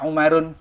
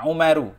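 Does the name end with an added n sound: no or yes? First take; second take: yes; no. First: The name ends in a u vowel plus n. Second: The name ends in a short u vowel. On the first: The speaker calls it wrong. "Tidak boleh dibaca Umarun" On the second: The speaker calls it right. "Contohnya Umaru"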